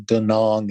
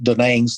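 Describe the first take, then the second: First: It is pronounced in a non-American way. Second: It is pronounced in an Americanized way. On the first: "is the way we would pronounce it" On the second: "the Americanization of it"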